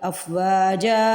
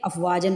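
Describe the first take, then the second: First: The word ends with a stretched long a. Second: The word ends with an n sound. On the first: "ایک زبر کو پڑھا اور حرف کو ہلکا سا کھینچا، ایک الف سے بدل دیا" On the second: "افواجن پہ بھی دو زبریں تھی"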